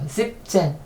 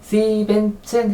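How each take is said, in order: First: The middle syllable is dropped, giving 'siebzehn'. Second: The full syllable 'sieben' is said before 'zehn'. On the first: The speaker calls it right. "중간에 에 n을 빼버렸어요" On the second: The speaker calls it wrong. "n이 계속 겹치고"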